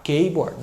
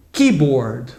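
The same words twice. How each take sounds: First: Keyboard said as a Brazilian reading it, ke-bord; typical Brazilian mistake. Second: Keyboard said KI-bord, lower, stress on the first syllable; correct pronunciation. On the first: Retold or imitated. Teacher imitates how Brazilians wrongly say keyboard. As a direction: mimic the Brazilian mispronunciation of keyboard. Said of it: "A tendência do brasileiro é falar keyboard". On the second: Shown as a demonstration. Teacher models keyboard for Brazilian students. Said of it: "Então, é keyboard".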